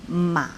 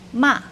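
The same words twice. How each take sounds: First: The pitch dips low, then bends up. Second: The pitch falls sharply from high. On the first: "Troisième ton, c'est le ton bas, en creux" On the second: "Quatrième ton, c'est le ton descendant"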